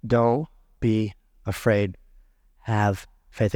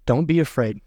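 First: Calm a frightened father gently; tender reassurance. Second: Said in the usual way. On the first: Acted. Preacher quotes Jesus again. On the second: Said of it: "remember that Jesus said".

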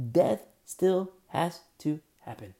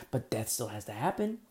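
First: "Death still has to happen" slow and loud, "Death" hit hardest; slow emphatic repeat. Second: Said in the usual way. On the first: Real, not acted. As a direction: lean hard and slow on "Death". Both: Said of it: "repeated with emphasis".

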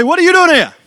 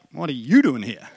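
First: Loud, high surprised call across a street; startled greeting yelled, louder and higher; calling out across the road. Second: Said in the usual way. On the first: Retold or imitated. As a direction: shout it over the traffic to a friend you just spotted. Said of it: "hear this voice calling out to me".

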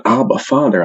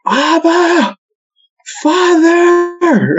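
First: Said in the usual way. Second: High, drawn-out yelled prayer; yelling out. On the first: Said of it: "He's yelling". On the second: Retold or imitated. Priest calling to God over speakerphone, yelling out. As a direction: cry out high, holding each word long. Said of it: "he, he yells out".

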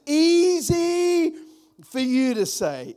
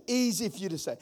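First: Easy thrown high and loud; exasperated retort. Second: Said in the usual way. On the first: Shown as a demonstration. Pastor mocking complainers, high exasperated retort. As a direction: fling easy up high in protest.

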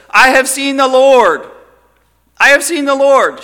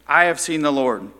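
First: High, loud joyful cry; excited. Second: Said in the usual way. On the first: Retold or imitated. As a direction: burst out with the news. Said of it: "She was so excited". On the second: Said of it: "now she's rejoicing".

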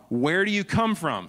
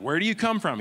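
First: Higher, louder urgent question; Pilate demanding. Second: Much higher, louder, more insistent demand; Pilate insisting. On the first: Pilate questioning Jesus inside, raised urgent demand. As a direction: press him for an answer. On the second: Pilate pressing Jesus again, sharper raised demand. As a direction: push harder the second time. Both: Retold or imitated.

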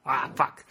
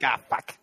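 First: Copying the Australian "Ah, fuck" with a flat open ah; Australian accent, imitated. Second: Australian accent. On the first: Friend copies the Australian example, Australian accent. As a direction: repeat the Australian "Ah, fuck" after your friend. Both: Shown as a demonstration. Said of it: "You just gotta think".

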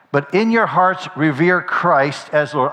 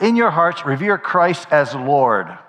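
First: Said in the usual way. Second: "Lord" drawn out with weight at the end; slow down and lean firmly on "Lord"; stress on Lord. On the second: Shown as a demonstration. Preacher repeats the verse to his congregation, stressing "Lord". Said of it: "Emphasis on the Lord".

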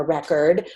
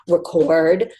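First: "record" stressed on the first syllable, REK-erd; noun stress. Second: "record" stressed on the second syllable, louder, re-CORD; verb stress. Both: Shown as a demonstration. Says the word two ways.

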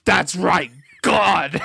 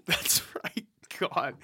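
First: "That's right, God" read louder and higher, as if in capitals; all caps. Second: "That's right, God" whispered, unvoiced. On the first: Narrator reading the typed all-caps line aloud, loud and high. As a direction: belt it out like shouted capitals. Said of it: "And in all caps". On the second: Player answering the call to quiet down, whispering the line. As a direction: hush it to a soft whisper. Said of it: "Okay, quiet down". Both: Shown as a demonstration.

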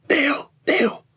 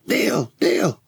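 First: Urgent hushed call, pitched high; whisper yelling. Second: Calling out. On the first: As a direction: call his name without being heard. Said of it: "it's whispering, whisper shouting". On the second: Calling out for missing friend. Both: Acted.

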